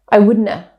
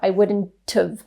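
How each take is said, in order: First: The t is dropped and have is reduced. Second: The t is pronounced and linked into have. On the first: "You didn't hear it because I didn't say it" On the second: "they might pronounce the t and connect it to the vowel sound in have"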